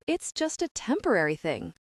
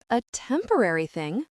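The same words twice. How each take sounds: First: Said in the usual way. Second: "temporary thing" echoed with rising tune; questioning echo. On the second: A narrator's reading. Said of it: "she echoes".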